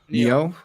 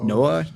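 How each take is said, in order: First: The name sounds like 'Neo'. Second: The name sounds like 'Noah'. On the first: The speaker calls it right. "so like the Matrix" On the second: The speaker calls it wrong. "I'm not sure how to pronounce it correctly"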